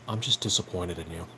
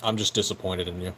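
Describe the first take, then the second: First: It is said in a very deep voice. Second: It is said in a normal voice.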